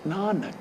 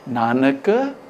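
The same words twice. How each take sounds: First: The last letter is pronounced weakly. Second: The last letter is pronounced fully.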